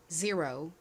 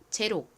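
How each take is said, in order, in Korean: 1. 미국식 억양으로 발음합니다. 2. 한국식 억양으로 발음합니다. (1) "미국식 원어 발음으로는" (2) "한국식으로는"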